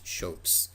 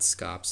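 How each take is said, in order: First: The word begins with an sh sound. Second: The word begins with an sk sound. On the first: The speaker calls it right. "it's shopes" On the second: The speaker calls it wrong. "it's not scops"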